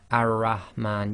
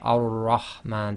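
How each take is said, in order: First: The r is light and thin. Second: The r is heavy and thick. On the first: The speaker calls it wrong. "So you don't say ar-rahman" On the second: The speaker calls it right. "you say ar-rahman. So that's thicker"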